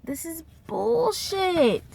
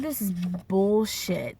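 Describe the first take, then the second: First: High, drawn-out indignation; retold exasperated outburst. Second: Retold disgust. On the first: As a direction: stretch it out high in mock outrage. Repeated, escalating retold outburst. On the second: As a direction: say it slowly, fed up but contained. First take of retold outburst.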